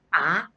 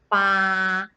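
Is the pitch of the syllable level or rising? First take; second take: rising; level. First: The pitch rises toward the end. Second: The pitch stays high and level. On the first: It means to pull out. "ini nada dua sekarang... naik dikit ya" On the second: It means eight. "Ini huruf-huruf yang bernada satu... nada tahan nadanya"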